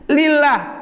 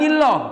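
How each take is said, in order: First: The L is pronounced thin and light. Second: The L is pronounced thick and heavy. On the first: "kenapa tipis?" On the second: "Kenapa enggak lillah?"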